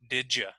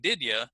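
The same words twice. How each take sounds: First: The d and y merge into a j sound. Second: The d and y sounds stay separate. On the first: "some people say did ya" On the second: "instead of saying did ya"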